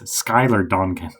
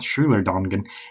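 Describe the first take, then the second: First: The first name begins with an 'sk' sound. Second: The first name begins with a 'sh' sound. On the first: The speaker calls it right. "it's Skylar Dongan" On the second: The speaker calls it wrong. "it's not Schuler Dongan"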